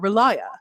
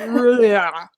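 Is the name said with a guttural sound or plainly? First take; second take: plain; guttural. First: The name is said plainly, as it is spelled. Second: The name is said with a throaty, guttural sound. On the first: "I go with phonetic pronunciations" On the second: "Like basically like hakalugi, and then don't actually spit it"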